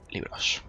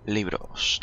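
First: "Libros" whispered, breathy and unvoiced. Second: Said in the usual way. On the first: Shown as a demonstration.

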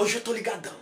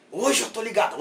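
First: Hushed, held-back wired voice; quiet. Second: Said in the usual way. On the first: Acted. (baixinho, contido)

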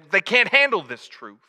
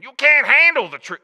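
First: Raised, louder mock movie-star outburst; Jack Nicholson. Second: High, very loud hammed-up movie shout; Jack Nicholson. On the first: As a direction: attempt a famous actor's indignant courtroom line. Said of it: "as Jack Nicholson would say". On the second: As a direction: go all out on a bad actor impression. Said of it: "Let's try that again".

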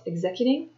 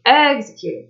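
First: "Executing" with the accent on the second syllable; misplaced stress. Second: "executing" with EX punched higher and louder; corrected stress. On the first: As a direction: stumble on "Executing", leaning on ZEC instead of EX. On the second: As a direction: hit the first syllable of "executing" hard, correcting yourself. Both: Shown as a demonstration. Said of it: "accent on the wrong syllable".

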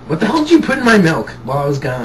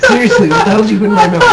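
First: Laughing. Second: Loud, fast, exasperated demand; angry demanding. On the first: First asking, laughing. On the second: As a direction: demand an answer, much louder. Repeats question, louder, demanding. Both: Real, not acted.

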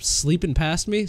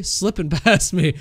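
First: "sleeping" with a long ee, questioning; slipped pronunciation. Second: "slipping" with a short i, laughing; corrected pronunciation. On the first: Player tripping over words after scares, "sleeping" with long ee. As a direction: say "sleeping" where "slipping" is meant, tune rising. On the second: Player fixing a slip for viewers, "slipping" with short i. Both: Real, not acted. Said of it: "Jump scares are breaking my English".

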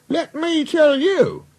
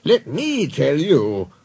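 First: Very high, drawn-out indignant voice; indignant engine. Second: Slow, emphatic, higher than narration; authoritative boss. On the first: Duck defending the railway, high indignation. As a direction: start a retort in a high, slow voice. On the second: Boss silencing engines with news, authoritative. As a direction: announce it slowly with authority. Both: Acted.

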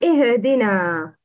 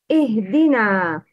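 First: "ihdina" with a bounced h; wrong qalqala. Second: "Ihdina" with a still h, no bounce; ha with sukun. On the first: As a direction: mispronounce "ihdina", adding a little echo vowel after h. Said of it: "The wrong is". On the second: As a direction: say "Ihdina", h running straight into d. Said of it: "pronounce ha with sukun". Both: Shown as a demonstration.

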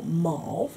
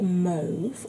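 First: Mauve said the American way, like "mawv"; American pronunciation. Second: Said in the usual way. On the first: Shown as a demonstration. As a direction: say mauve with an open American "aw" vowel. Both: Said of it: "as the Americans would say".

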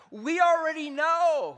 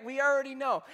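First: Loud, slow and pointed; emphatic. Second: Said in the usual way. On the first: Shown as a demonstration. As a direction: lean hard on already, slowly and louder.

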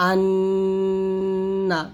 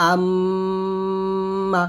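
First: Anna with n hummed long, lips open; humming nasal demo. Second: আম্মা with m hummed long, lips closed; humming nasal demo. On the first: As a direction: hold the nn of Anna on a level hum. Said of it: "নুনটা মুখ খুলে গুনগুন আওয়াজে". (sung, মুখ খোলা গুনগুন আন্না) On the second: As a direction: hold the mm of আম্মা on a level hum. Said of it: "মুখ বন্ধ করে গুনগুন আওয়াজে". (sung, মুখ বন্ধ গুনগুন আম্মা) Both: Shown as a demonstration.

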